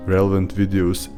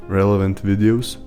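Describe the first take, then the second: No difference in how they are said.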